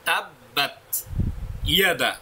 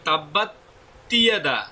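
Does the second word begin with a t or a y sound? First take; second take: y sound; t sound. First: The second word begins with a y sound. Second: The second word begins with a t sound. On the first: The speaker calls it right. "তাব্বাত এক শব্দ, ইয়াদা আরেক শব্দ" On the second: The speaker calls it wrong. "অনেকে বলে তাব্বাত তিয়াদা"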